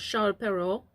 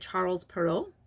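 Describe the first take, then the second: First: The name is said with French-style sounds. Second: The name is said with English-style sounds. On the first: The speaker calls it right. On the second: The speaker calls it wrong.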